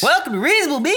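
It is said in a special put-on voice.

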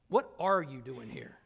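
The tone is guarded and suspicious. The visitor's presence is being questioned. "Which puts you on the defensive"

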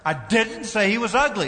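The stress is on the word 'didn't'. The speaker firmly denies saying it. "Emphasis on the second word"

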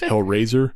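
The word is slurred together in a lazy way. This marks a true local Pittsburgh speaker. "true Yinzers lazy their words in, which is why it goes Hellraiser"

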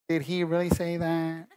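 It is said in an Urkel impression voice.

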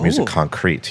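It is pronounced the American English way.

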